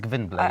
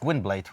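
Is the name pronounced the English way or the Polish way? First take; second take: Polish; English. First: The name is said with a Polish pronunciation. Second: The name is said with an English pronunciation. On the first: "in Polish it's" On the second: "in English it's"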